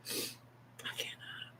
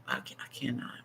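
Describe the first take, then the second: First: "I cannot" slowly, in a barely voiced tearful whisper. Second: Said in the usual way. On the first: Real, not acted. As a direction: breathe "I cannot" out slowly as the tears come. Repeats refusal in a whisper.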